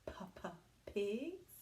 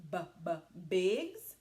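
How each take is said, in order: First: "P, p, pigs" with a puffed p; right sound. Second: "B, b, bigs" with a hard voiced b; wrong sound. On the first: Teacher showing the right letter sound, puffed p. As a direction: say "P, p, pigs" with a breathy p. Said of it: "Pigs begins with the letter P". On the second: Teacher testing the wrong letter sound, wrong B. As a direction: try "B, b, bigs" as a wrong start with b. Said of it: "Is it a P". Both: Shown as a demonstration.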